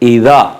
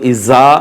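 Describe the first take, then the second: First: The middle consonant is a soft 'dh' sound. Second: The middle consonant is a buzzing 'z' sound. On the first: The speaker calls it right. "ईदा गाल है" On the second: The speaker calls it wrong. "इसको इज़ा नहीं पढ़ेंगे"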